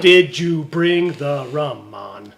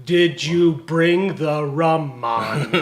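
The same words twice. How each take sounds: First: Put-on slow second go at Jamaican accent. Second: Put-on slow Jamaican accent. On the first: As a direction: try the Jamaican accent again, slowly. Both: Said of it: "That's my Jamaican accent".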